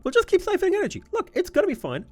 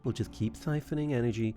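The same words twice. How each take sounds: First: Squeaky goofy voice; silly high voice. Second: Said in the usual way. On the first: Pretend. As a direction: chirp it like a giddy cartoon. Repeats line in silly voice.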